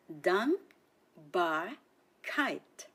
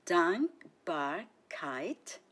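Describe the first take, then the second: First: Dankbarkeit stretched very slow, syllable by syllable; slow model word. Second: Dankbarkeit whispered slowly, no voice. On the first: Teacher to learners, slow model word. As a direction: spell out Dankbarkeit slowly. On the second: Teacher to learners, whispered repetition. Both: Shown as a demonstration. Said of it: "Listen and repeat after me".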